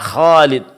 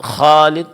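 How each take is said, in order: No difference in how they are said.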